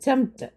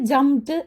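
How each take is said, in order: First: The word ends with a t sound. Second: The word ends with a d sound. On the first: The speaker calls it right. "ജംപ്ഡ് ടി ആണ്, ടി ട് എന്നുള്ള ഉച്ചാരണമാണ് last വരുന്നത്" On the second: The speaker calls it wrong. "അതിന് ജംപ്ഡ് എന്നല്ല"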